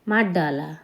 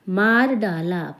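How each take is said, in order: First: The words run together and the r sound changes. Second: Each word is said fully and separately. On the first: "बहुत जल्दी में बोलें" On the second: "जब हम संभल के बोलते हैं तो हम पूरा बोलते हैं"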